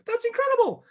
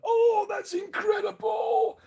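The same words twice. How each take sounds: First: "That's incredible" jumped very high and loud; Mickey Mouse squeak. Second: Much higher, slow, straining yell on "Oh, that's incredible"; strained overdone shout. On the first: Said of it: "sounding like Mickey Mouse". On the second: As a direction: push "Oh" way too hard, like straining. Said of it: "sounds like I'm trying to go to the toilet". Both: Shown as a demonstration.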